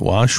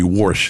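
First: It has a New England accent, with no r. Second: It has a New Jersey accent, with an r.

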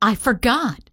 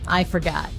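First: It sounds suddenly surprised, after a gasp. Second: It sounds casual and unconcerned.

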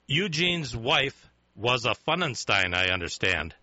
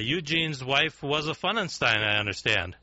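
First: It is said more slowly and clearly. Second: It is said at a normal pace.

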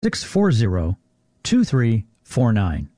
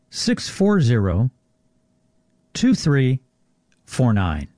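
First: It is read at normal speed. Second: It is read more slowly.

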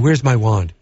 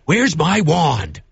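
First: It is said flatly, without force. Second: It is said forcefully, like an exclamation.

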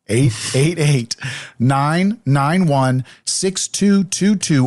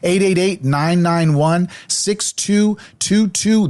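First: The number is said slowly. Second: The number is said fast.

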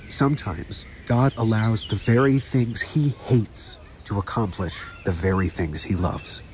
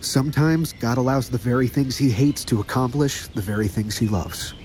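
First: It is said more slowly. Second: It is said at a normal pace.

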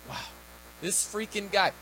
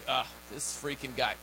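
First: It sounds impressed and admiring. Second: It sounds annoyed and disapproving.

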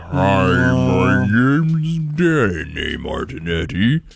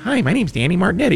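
First: It is said slowed, like a dying battery. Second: It is said at normal toy speed.

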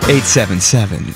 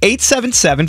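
First: It is said in a low, seductive voice. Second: It is said in a plain, normal voice.

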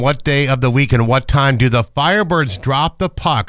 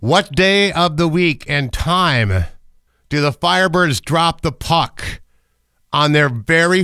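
First: It is said at normal speed. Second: It is said really slowly.

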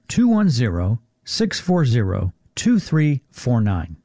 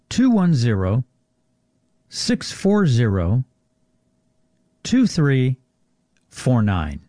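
First: The number is read at normal speed. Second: The number is read more slowly.

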